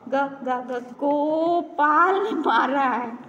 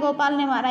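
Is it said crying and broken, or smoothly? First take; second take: crying; smoothly. First: It is said crying, broken into stuttered bits. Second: It is said smoothly, all at once.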